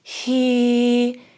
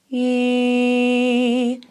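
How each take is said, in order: First: The vowel starts with audible breath before it. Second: The vowel starts smoothly with no pop or breath. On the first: "you'll hear a little bit of a breathier sound at the start" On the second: "the start of the note has a smooth start"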